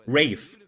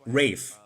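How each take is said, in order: First: The name sounds like the word 'rave'. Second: The same.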